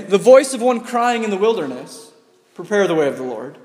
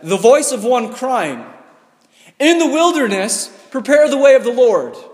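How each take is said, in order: First: The pause comes after the word wilderness. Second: The pause comes after the word crying.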